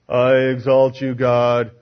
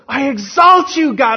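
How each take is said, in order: First: It is said flatly, without emotion. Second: It is said with strong joyful emotion.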